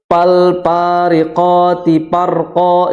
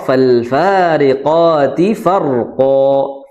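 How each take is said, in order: First: The words begin with a p sound. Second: The words begin with an f sound. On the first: The speaker calls it wrong. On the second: The speaker calls it right.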